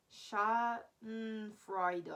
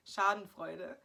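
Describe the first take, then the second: First: Schadenfreude very slowly, broken into syllables; English-style sounding out. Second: Schadenfreude said quickly the German way; German pronunciation. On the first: Vlogger guessing the English pronunciation, Schadenfreude slowly sounded out. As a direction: stretch Schadenfreude out piece by piece. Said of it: "how you should pronounce it here is". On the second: German speaker reading her own word, Schadenfreude said natively in one go. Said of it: "can't say it the German way". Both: Shown as a demonstration.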